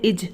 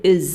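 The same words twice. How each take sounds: First: इज with a hard Hindi j sound, the common mistake; mispronounced is with a j ending; wrong pronunciation. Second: Correctly pronounced is with a z sound; correct pronunciation. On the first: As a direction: say इज ending in a plain j like जग. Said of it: "इज, जो कि गलत है". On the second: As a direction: say is with a clear z at the end. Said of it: "आप क्या पढ़ेंगे? is पढ़ेंगे". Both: Shown as a demonstration.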